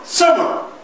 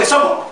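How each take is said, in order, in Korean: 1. 첫 음절이 강하고, 그 뒤로 음높이가 떨어집니다. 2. 강한 강세 없이 고르게 발음됩니다. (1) "강하게 뒤뚝 떨어뜨리는" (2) "우리말처럼 summer 하면 이건 영어가 아니라 한국의 summer 액센트가 없으면"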